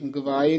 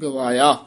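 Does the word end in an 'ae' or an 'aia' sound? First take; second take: ae; aia. First: The word ends in an 'ae' sound. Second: The word ends in an 'aia' sound. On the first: The speaker calls it wrong. "ਗਵਾਏ ਨੀ" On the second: The speaker calls it right.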